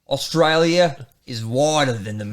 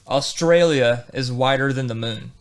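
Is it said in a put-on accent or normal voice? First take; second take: accent; normal. First: It is said in a put-on accent. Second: It is said in his normal voice.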